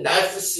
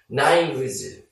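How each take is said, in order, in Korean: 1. s 앞에서는 f 소리로 발음해요. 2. s 앞에서는 v 소리로 발음해요. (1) "knifes 이렇게 어렵게 발음되는 게 아니라" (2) "knives 이런 식으로 자연스럽게"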